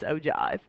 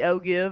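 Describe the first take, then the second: First: The second syllable rhymes with jive. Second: The second syllable does not rhyme with jive. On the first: The speaker calls it right. "You get to say the word jive" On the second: The speaker calls it wrong. "it really looks like it'd be ogive, and but it's not"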